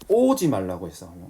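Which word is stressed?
오지. The stress falls on the word 오지. Coming is forbidden, but going is allowed. "가는 건 되는데 오지 말라고 하는 게 또 부정이 됩니다"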